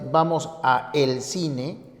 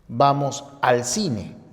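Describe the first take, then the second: First: A and el are said as separate syllables. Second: A and el merge into one syllable, al. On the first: The speaker calls it wrong. "en lugar de" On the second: The speaker calls it right. "Ese uso es el correcto"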